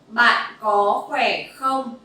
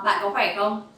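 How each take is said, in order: First: It is said at a slower pace. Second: It is said at a faster pace.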